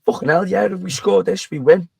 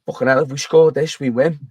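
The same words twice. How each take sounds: First: Higher, excited retelling of the shout; a touch of drunken disbelief; excited realisation. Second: Said in the usual way. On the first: Retold or imitated. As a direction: blurt it out as the penny drops. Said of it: "retold again, excited". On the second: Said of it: "someone said".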